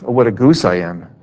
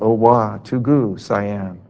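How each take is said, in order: First: The syllables are run together quickly. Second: The syllables are said slowly, with breaks between. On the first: It admits the worshipper is foolish. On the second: It sounds like a chant to an idol.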